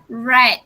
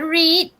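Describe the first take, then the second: First: The word has a short vowel, like 'red'. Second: The word has a long vowel, like 'reed'. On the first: It is the past participle. The speaker calls it right. "This is past participle" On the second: It is the present-tense form. The speaker calls it wrong. "This is not read"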